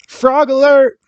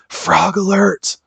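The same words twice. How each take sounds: First: It is said in a full, normal voice. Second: It is said in a whisper. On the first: The speaker calls it wrong. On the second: The speaker calls it right.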